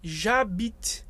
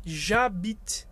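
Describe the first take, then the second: First: The vowel of je drops, joining into j'habite. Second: The same.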